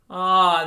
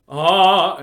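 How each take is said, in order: First: The sound is delicate and sweet. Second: The sound is heavy and forceful. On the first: The speaker calls it right. "this nice, delicate, sweet sort of way" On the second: The speaker calls it wrong. "we don't say it ah, heavy or forceful"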